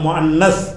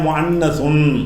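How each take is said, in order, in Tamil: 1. இந்தச் சொல் வெறும் மெய்யெழுத்தில் முடிகிறது. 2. இந்தச் சொல் மூக்கொலி '-un' முடிவுடன் முடிகிறது.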